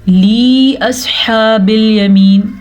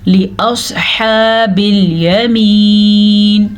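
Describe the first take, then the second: First: The first vowel, in 'li', is drawn out long. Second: The first vowel, in 'li', is kept short. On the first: The speaker calls it wrong. "अक्सर लोग पढ़ते हैं" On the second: The speaker calls it right. "लाम ज़ेर ली"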